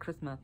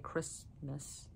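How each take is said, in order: First: The word is mumbled with sounds slurred together. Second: The word is carefully and clearly articulated. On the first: The speaker calls it wrong. "Otherwise it comes out like Christmas" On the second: The speaker calls it right. "really make my mouth move in the correct way to say Christmas"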